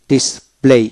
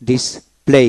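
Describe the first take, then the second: No difference in how they are said.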